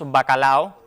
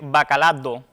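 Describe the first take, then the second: First: No d sound comes before the final o. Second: A d sound comes before the final o. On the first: The speaker calls it right. "lo adecuado es que digamos bacalao" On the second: The speaker calls it wrong. "una ultracorrección"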